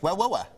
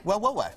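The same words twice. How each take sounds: First: Geordie accent. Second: A second go at Geordie, a bit higher; playful Geordie repeat; Geordie accent. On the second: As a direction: Geordie "Well, well, well" with the pitch raised. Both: Shown as a demonstration. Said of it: "sounds like".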